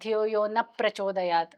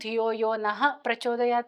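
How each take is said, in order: First: The word 'na' ends plainly without any breath. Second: The word 'na' ends with an h-like breath. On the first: The speaker calls it wrong. "ಆ ನಃ ವಿಸರ್ಗ ಹೇಳಕ್ಕೆ ಹೋಗಲ್ಲ" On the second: The speaker calls it right. "ಅಂತಾದ್ರೂ ಹೇಳ್ಬೇಕು"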